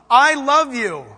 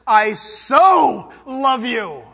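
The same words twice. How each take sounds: First: Said in the usual way. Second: "so" drawn out very slowly with a catch of tears; stress on so, tearful. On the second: Shown as a demonstration. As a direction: linger on "so", almost crying. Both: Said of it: "Hear the difference?".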